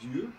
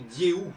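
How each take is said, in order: First: The vowels are reduced and clipped short. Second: The vowels are fully and openly sounded. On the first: The speaker calls it wrong. "et pas Dieu" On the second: The speaker calls it right. "qu'à mon avis il faut prononcer Dieu"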